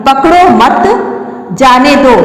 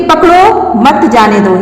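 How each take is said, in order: First: पकड़ो मत together, long break, then जाने दो; पकड़ो मत as one phrase, जाने दो set apart; pause after मत. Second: पकड़ो set apart, then मत जाने दो together; slow reading that keeps मत joined to जाने दो; pause after पकड़ो. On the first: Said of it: "मत के बाद लगाते हैं". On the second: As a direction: break right after पकड़ो, slowly. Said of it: "पकड़ो के बाद विराम चिन्ह का प्रयोग किया है". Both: Shown as a demonstration.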